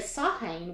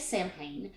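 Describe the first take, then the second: First: The M sound is left silent. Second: The M sound is pronounced.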